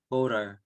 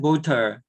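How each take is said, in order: First: It is said with an American accent. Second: It is said with a British accent. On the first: "미국 영어가 표준 발음이니까 voter" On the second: "영국 발음은 voter 하겠지만"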